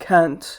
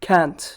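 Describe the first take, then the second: First: It is said as one short contracted syllable. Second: The same.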